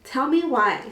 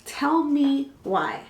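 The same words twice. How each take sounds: First: Said in the usual way. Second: Each word stretched very slowly; dramatically slow, spaced-out TELL ME WHY; drawn-out emphasis. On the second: Acted. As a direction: drag it out for storytelling effect.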